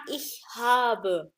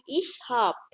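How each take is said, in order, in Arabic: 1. الحرف المتحرك الأخير في habe يُنطق بوضوح. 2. الحرف المتحرك الأخير في habe يُحذف. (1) "فهتسمع ich habe صح" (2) "عشان تنطق سريع زي الألمان فبنقول"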